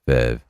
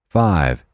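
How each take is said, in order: First: The vowel is a short 'eh' sound. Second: The vowel is the usual 'eye' sound.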